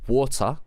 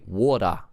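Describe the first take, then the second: First: Water with the T sounded; careful "wa-ter"; clear T. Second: Water said as "wada", Aussie style; imitated Aussie "water" with a D. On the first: Shown as a demonstration. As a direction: pronounce the T in water plainly. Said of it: "you skip the T". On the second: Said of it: "You would say it with a D".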